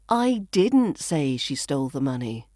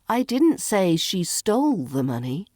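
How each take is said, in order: First: The stress falls on the word didn't. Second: The stress falls on the word stole. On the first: It was never said at all. "which implies I never said that" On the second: It was borrowed, not stolen. "Maybe she borrowed it"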